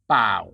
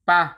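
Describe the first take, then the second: First: Only the second syllable เปล่า is said. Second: It is cut to one short syllable, ปะ. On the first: "to เปล่า" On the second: "shorten it even further to"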